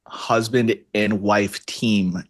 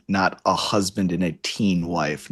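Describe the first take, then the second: First: Slow, with "team" ending in a clear m; "Husband and wife team", final word "team" with a firm m; team said clearly. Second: Put-on "teen" with an n instead of an m, slowly; wrong word teen. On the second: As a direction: says "a teen wife", stressing the n ending. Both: Shown as a demonstration.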